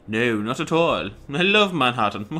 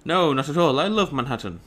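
First: Put-on posh accent. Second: Lightly posh English reading; posh accent. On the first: Gamer replaying the Manhattan line after noticing the character, exaggerated posh accent. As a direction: draw the words out, very posh. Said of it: "this guy's really posh, isn't he?". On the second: Acted. Gamer first reading a newcomer's reply about Manhattan, lightly posh accent. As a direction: give the line a touch of posh. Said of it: "this guy's really posh".

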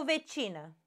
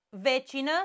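First: "vecină" stressed on CI. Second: "Vecină" stressed on the first syllable VE. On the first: Teacher offers the other option, stress on the I. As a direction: put the weight of "vecină" on CI. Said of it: "la vecină este clar că e pe I". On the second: Teacher offers the first option, stress on VE. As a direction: hit VE at the start of "Vecină". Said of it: "hai să vedem cum e". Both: Shown as a demonstration.

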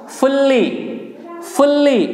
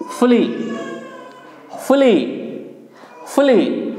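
First: फुल्ली with held double l, higher; wrong pronunciation. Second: फुली with one short l, higher and falling; correct pronunciation. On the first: Teacher warning learners what not to say, wrong pronunciation फुल्ली with double l. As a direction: say फुल्ली as "ful-lee", stretching the l. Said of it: "फुल्ली नहीं है". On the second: Teacher drilling learners, correct pronunciation फुली with single l. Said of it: "क्या pronunciation है?". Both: Shown as a demonstration.

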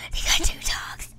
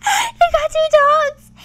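First: Breathless unvoiced whisper; awed whisper. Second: Much higher, louder, slow squeal; gasp, then squeal it slowly; gasping delight. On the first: Player whispers in awe at game dogs. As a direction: whisper it in disbelief. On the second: Player squeals with delight at her game dogs. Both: Real, not acted.

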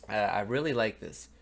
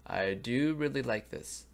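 First: Said in the usual way. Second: "do" pushed with a falling tune; stress on do. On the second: Real, not acted. Reviewer insisting he likes the EP, stress on "do". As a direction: lean on "do" to insist. Repeats his liking with emphasis.

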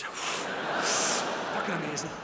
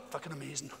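First: Long sigh, words dragged out slowly; sigh then slow. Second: Sharp gasp then quick awed words; gasp then fast. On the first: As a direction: sigh it out like a dazed stoner, very slow. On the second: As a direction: gasp in mock wonder, then rush it. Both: Retold or imitated. Retelling stoned friend's pill story.

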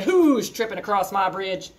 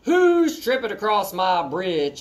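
First: Troll challenge. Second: Yelled. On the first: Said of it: "I hopped up on a bridge and I said". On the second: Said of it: "I yelled". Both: Acted.

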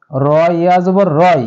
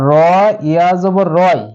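Both takes have the same delivery.

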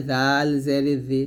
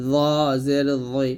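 First: Light tongue-tip dh in "জাল জের জি"; thin dhal. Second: Heavy rounded dh in "জ জের জই"; thick za. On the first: Teacher demonstrating the thin letter, lightly pronounced "জাল জের জি". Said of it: "জাল পাতলা করে". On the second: Teacher demonstrating the thick letter, heavily pronounced "জ জের জই". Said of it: "জ মোটা করে". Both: Shown as a demonstration.

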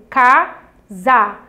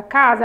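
First: "Casa" divided into CA, pause, ZA; syllable by syllable. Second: Said in the usual way. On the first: Shown as a demonstration. Teacher dividing the word for pupils, "Casa" syllable by syllable. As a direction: break "Casa" into two even beats. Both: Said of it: "quando eu vou dividir a palavra".

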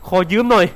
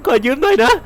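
First: Said in the usual way. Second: Fake-sob the apology with a laugh; mock crying. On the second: Player mock-sobbing as he takes the dying friend's gun. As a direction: whimper it jokingly, pitch up.

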